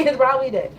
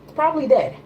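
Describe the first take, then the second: First: Laughs, then repeats it amused; real laugh on the repeat; chuckling through the punchline. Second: Said in the usual way. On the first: Real, not acted.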